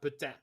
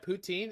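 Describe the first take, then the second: First: The first syllable does not sound like 'poo'. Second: The first syllable sounds like 'poo'.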